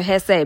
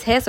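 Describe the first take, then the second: First: Hesse said as two syllables, "hess-ay"; two-syllable pronunciation. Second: Hesse said as one syllable, "hess"; one-syllable pronunciation. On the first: Host unsure of a German state's name, Hesse as "hess-ay". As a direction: end Hesse on an "ay" sound. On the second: Host unsure of a German state's name, Hesse as "hess". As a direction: say Hesse with a silent final e. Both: Shown as a demonstration. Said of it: "I don't know if it's Hesse or Hesse".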